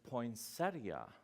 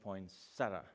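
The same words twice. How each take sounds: First: An 'ee' sound comes before the final 'a'. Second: No 'ee' sound comes before the final 'a'. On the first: "everyone says this wrong" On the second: "There's like no I there"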